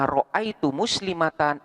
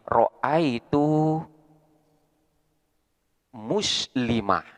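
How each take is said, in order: First: The last word ends in -atan with final n. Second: The last word ends in -ah with final h. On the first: The reading continues without stopping. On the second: The reading stops at this word. "Ketika lafaz muslimah di sini dibaca wakof, maka taknya di sini akan berganti dengan huruf H"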